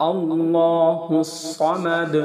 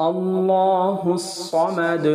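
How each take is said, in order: No difference in how they are said.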